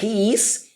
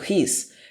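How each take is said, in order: First: Two separate full words are said. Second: The words merge into one short syllable. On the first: "Em vez de falar he is" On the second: "eu falo his"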